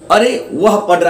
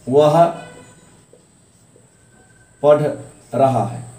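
First: It is said with surprise. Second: It is said as a plain statement.

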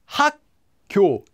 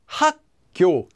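Both takes have the same delivery.

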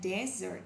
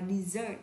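First: The stress is on the first syllable. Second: The stress is on the second syllable. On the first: It is a noun meaning a dry sandy region. "sa mạc" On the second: It is a verb meaning to abandon. "bỏ mặc, động từ"

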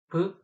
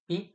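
First: The consonant is hard, not palatalized. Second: The consonant is soft, with a short i-glide. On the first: "브 하면 경음이고" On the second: "비 하면 짧은 이가 붙어서 연음입니다"

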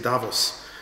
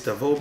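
First: The name is said with a non-French pronunciation. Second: The name is said with a French pronunciation. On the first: "but I've heard people say Davos" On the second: "In French, I would say it's Davos"

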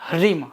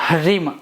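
The two takes are said the same way.

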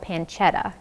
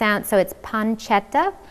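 First: It is said with an English accent. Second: It is said with an Italian accent.

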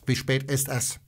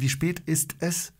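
First: The words ist es run smoothly together. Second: The words ist es are separated and hard. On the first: "to już brzmi tak bardziej native speaker" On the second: "to jest takie twarde ist es. To tak abgehackt"

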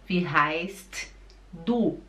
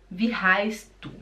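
First: The t in heißt is clearly pronounced. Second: The t in heißt is dropped. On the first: The speaker calls it wrong. "você não fala Wie heißt du?" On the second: The speaker calls it right. "o T, ele desaparece. Você fala"

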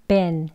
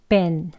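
The two takes are said the same way.

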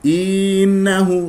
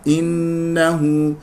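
First: The first vowel is stretched into a long ee. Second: The first vowel is short and clipped. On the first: The speaker calls it wrong. "تجعلها تمطها ياء. إنه خطأ" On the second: The speaker calls it right. "إي انتهى"

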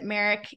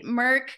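First: The name is said as two syllables. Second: The name is said as one syllable. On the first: The speaker calls it wrong. "I think I pronounced it Merrick" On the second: The speaker calls it right. "I had to say that one again"

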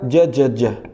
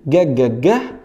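First: The consonant is a soft j sound. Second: The consonant is a hard g sound.

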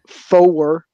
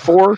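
First: The word is stretched into two syllables. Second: The word is said as one syllable. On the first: "It's really turned into a two-syllable word" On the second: "the normal one-syllable word"

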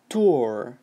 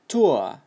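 First: It is said with an American accent. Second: It is said with a British accent.

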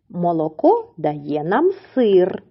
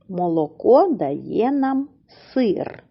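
First: It is read at a normal, flowing pace. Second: It is read slowly with a pause after.

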